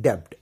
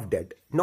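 First: Debt with the b sounded, "debbt"; wrong pronunciation. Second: Debt with silent b, "det"; correct pronunciation. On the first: Teacher showing what not to say, wrong pronunciation. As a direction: mispronounce debt as "dept". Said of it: "not debt". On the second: Teacher using it in a sentence, correct pronunciation. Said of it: "बी नहीं लगेगा". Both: Shown as a demonstration.

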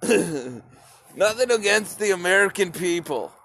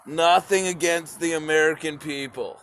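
First: Says it through a laugh, half joking; laughing disclaimer. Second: Same line again, steady and earnest with no laugh; mean it this time, calm and sincere; sincere clarification. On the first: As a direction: brush it off with a chuckle. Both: Real, not acted. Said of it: "I wanna clarify that".

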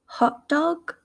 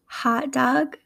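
First: British "hot dog" with rounded o; English accent, "hot dog" with lips rounded. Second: American "hot dog" with open ah; American accent, unrounded vowels in "hot dog". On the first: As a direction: say "hot dog" as in England, short round vowels. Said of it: "pronunciation would be in England". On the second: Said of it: "how I would say it". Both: Shown as a demonstration.

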